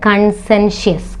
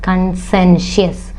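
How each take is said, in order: The two takes are said the same way.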